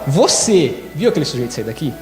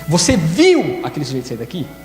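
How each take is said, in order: First: The word você carries the emphasis. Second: The word viu carries the emphasis. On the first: Asks whether the listener personally saw it. "eu estou perguntando se foi você que viu ou se foi outra pessoa que te contou" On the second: Asks whether it was really seen, not heard. "A segunda é se você viu mesmo ou se você ouviu"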